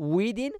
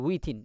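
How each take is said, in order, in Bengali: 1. মাঝের ব্যঞ্জনটি একটি voiced d-এর মতো শোনায়। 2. মাঝের ব্যঞ্জনটি একটি aspirated t-এর মতো শোনায়। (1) "ধর মতো উচ্চারণ করিবেন" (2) "উইথিন এভাবে না হইবেন"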